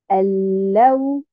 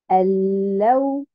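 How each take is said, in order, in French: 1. L'accent est sur la deuxième syllabe. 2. L'accent est sur la deuxième syllabe.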